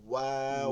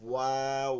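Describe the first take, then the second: First: The lips are rounded for the sound. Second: The same.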